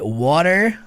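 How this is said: It is said in an American accent. "water americano"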